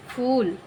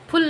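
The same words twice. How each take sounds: First: फूल with a long, relaxed oo. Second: फुल with a quick clipped short u. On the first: Teacher to pupils, फूल with a long relaxed oo. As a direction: let the oo in फूल stretch easily. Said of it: "फूल, बहुत relax होकर के बोला". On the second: Teacher showing the wrong short u in फुल. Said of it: "फुल नहीं बोला". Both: Shown as a demonstration.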